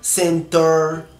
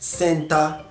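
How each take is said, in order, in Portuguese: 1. A palavra é dita com sotaque americano. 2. A palavra é dita com sotaque australiano. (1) "Nos Estados Unidos, por exemplo, a letra ER, eles falam" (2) "Aqui é"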